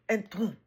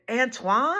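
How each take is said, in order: First: Put-on French accent. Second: Louder American "Antoine" with a questioning rise; American accent. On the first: Introducing himself to an American customer, French accent. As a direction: imitate his French "Antoine". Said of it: "it was much more French". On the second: Retold or imitated. Customer checking the Frenchman's name, questioning American accent. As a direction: repeat the name back higher, in an American accent. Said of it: "he said it much more".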